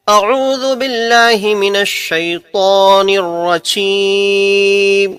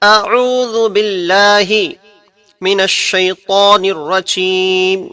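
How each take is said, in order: First: The phrase is said in one breath. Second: The phrase is split into two parts. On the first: "अब एक सांस में हम पढ़ते हैं इसे" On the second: "अब हम इसे दो हिस्सों के अंदर पढ़ते हैं।"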